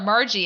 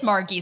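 First: The g is soft, like a j. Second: The g is hard, like in go. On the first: The speaker calls it wrong. "Most people call her Margie" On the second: The speaker calls it right. "and it is Margie. So you got the hard G"

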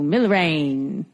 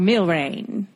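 First: The word is pronounced the English way. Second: The word is pronounced the French way.

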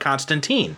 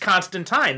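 First: The name is said with an American pronunciation. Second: The name is said with a British pronunciation. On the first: "they've gone with the American pronunciation of Constantine" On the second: "the British pronunciation of it is Constantine"

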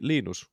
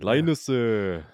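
First: The name is said with Finnish pronunciation. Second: The name is said with Korean-style pronunciation. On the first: "In Finnish it'd be Linus" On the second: "as the Koreans would say"

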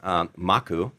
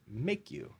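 First: The first vowel sounds like 'ah'. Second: The first vowel sounds like 'ay'. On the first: It is the Hawaiian word for risk. "Maku, M-A-K-U, is Hawaiian for risk" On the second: It sounds like the phrase 'make you'. "we put a line over the A and we pronounce it Make You"

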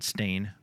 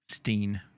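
First: The vowel sounds like the word stain. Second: The vowel sounds like the word steen. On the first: The speaker calls it wrong. "not Stain" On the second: The speaker calls it right. "It's Steen"

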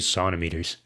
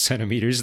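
First: The first syllable sounds like son. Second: The first syllable sounds like sen. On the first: Older surgeons say it this way. "orthopedic surgeons of a certain age, they just say sonometers" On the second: This is the standard English way. "it is pronounced centimeters. That is just how you do it in English"

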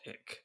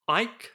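First: The vowel sounds like the one in 'lick'. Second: The vowel sounds like the one in 'like'. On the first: The speaker calls it wrong. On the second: The speaker calls it right. "So once again"

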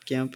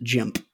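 First: It begins with a hard G sound. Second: It begins with a soft J sound. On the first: "I didn't mean like hard G" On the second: "we were going to pronounce it Jimp"

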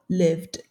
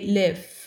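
First: The word ends with a clear final D sound. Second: The word ends without a final D sound. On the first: The speaker calls it right. "instead of lived" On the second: The speaker calls it wrong. "we tend to say live"

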